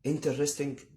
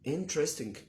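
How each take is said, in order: First: It begins with a full 'inter' syllable. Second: It begins without a full 'inter' syllable. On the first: The speaker calls it wrong. "مش لازم بيقول انتر" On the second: The speaker calls it right. "النطق الصح ليها"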